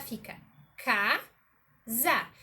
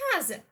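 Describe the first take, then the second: First: Slow, casa broken into ca-sa; split into syllables. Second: Said in the usual way. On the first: Shown as a demonstration. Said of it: "Se a gente for separar". ("casa" dito sílaba por sílaba, ca-sa) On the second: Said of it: "Acabei de citar casa".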